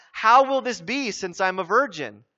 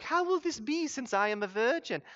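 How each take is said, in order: First: Said in the usual way. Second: High, soft, sweetly polite movie voice; hushed, higher, over-nice delivery; very nice Mary. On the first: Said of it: "That's a really polite way of saying". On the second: Acted. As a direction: mimic a dainty film heroine, gently and demurely. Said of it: "like, very nice".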